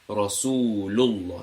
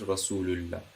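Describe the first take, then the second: First: The l in Allah sounds heavy and full. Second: The l in Allah sounds light and thin. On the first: The speaker calls it right. "this is Rasulullah" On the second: The speaker calls it wrong. "not Rasulullah"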